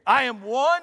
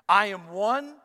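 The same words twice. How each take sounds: First: The phrase is said with force and conviction. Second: The phrase is said in a plain, calm way. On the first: "Now say it like you mean it" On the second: "Say this with me"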